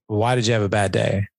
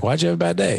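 First: Said in the usual way. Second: A much higher, talking-down "Why'd you have a bad day?"; lilting, patronising "Why'd you have a bad day?"; condescending. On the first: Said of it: "I don't even say". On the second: Shown as a demonstration. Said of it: "Even that sounds a bit condescending".

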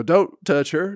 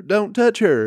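First: Raised, half-yelled mock plea; mock pleading. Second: Higher and louder, panicky imitated yell; mock frantic yell. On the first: Protest friends pleading with the auction guy, raised mock plea. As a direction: imitate the friends begging him to stop, a bit higher. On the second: Protest friends yelling at the auction guy, louder mock panic. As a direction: push the plea up into a shrill-ish mock shout. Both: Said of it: "her other fucking friends start go".

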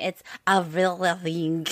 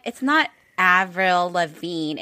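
First: "Avril Lavigne" said the French way, mimicking cousins; French-style Avril Lavigne. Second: Said in the usual way. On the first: Cousins correcting her, a soft French "Avril Lavigne". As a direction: imitate a French "Avril Lavigne", softly through a laugh. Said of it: "it's not [name]". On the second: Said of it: "they're like".

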